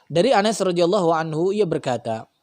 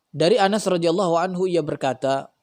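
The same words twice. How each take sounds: The two takes are said the same way.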